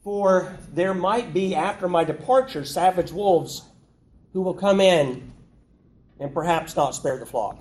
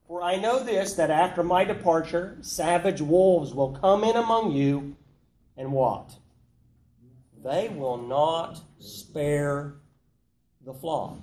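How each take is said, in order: First: Mock hedging. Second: Firm, certain statement of fact; emphatic reading. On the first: Preacher mocking a watered-down Paul, hesitant. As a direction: hedge every word like you're unsure. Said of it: "That's not what he says". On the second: Paul warning the elders, firm and certain. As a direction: read it as Paul meant it, with no doubt. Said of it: "He's very emphatic". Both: Shown as a demonstration.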